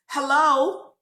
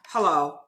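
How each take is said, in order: First: The greeting sounds warm and friendly. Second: The greeting sounds cold and reluctant. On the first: The speaker is glad to greet everyone. "The first time, hello, hey, how's everybody doing?" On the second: The speaker does not want to talk to the other person. "it let you know that she really didn't want to speak to me"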